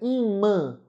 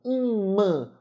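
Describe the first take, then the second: First: The final a is nasalized. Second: The same.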